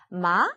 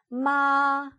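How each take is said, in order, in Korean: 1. 높이가 중간에서 시작해서 끝에서 올라갑니다. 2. 높이가 처음부터 끝까지 높고 평평하게 유지됩니다. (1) "보통 말한 높이에서 끝에만 조금 올려주시면 돼요" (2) "5에서 시작해서 5에서 끝나는 이 음을 1성이라고 합니다"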